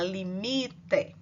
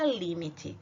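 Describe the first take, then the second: First: The stress falls on the Portuguese syllable. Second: The stress falls on the Spanish syllable. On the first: "que a gente fala limite" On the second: "a palavra limite tem a sílaba tônica num lugar diferente do português"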